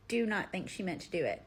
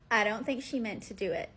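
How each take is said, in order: First: Deliberate weight on "do not"; emphatic restatement. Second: Said in the usual way. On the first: Real, not acted. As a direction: stress on "do not", each word separate. Restating the same opinion firmly.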